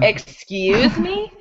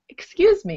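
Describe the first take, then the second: First: It sounds annoyed and questioning. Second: It sounds polite and courteous. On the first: Someone is doing something annoying or rude. "if you ask it like this, then that shows that someone is doing something annoying or being rude" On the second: The speaker is politely asking for attention. "when you're being polite, it's excuse me"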